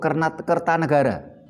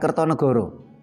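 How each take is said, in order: First: The vowels are pronounced as open a sounds. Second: The vowels are pronounced as o sounds. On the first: The speaker calls it right. "itu Kertanegara" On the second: The speaker calls it wrong. "bukan Kertonegoro"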